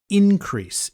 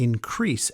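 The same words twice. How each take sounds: First: The stress is on the first syllable. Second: The stress is on the second syllable. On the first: It is used as a noun. "you put more emphasis on the first syllable" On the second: It is used as a verb. "you need to emphasize the second syllable"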